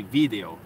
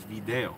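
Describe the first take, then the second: First: "video" as in Spain, VEE-day-o; stress on first syllable. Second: "video" as in Mexico, vi-DAY-o; stress on second syllable. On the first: Reading out how Spain says it, VI stressed in "video". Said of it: "in Spain and some other countries". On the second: Reading out how Mexico says it, DE stressed in "video". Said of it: "But in Mexico". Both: Shown as a demonstration.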